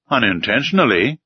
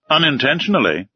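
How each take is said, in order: First: Said in the usual way. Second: Raised voice. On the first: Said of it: "said I". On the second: A narrator's reading. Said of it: "raising his voice a little".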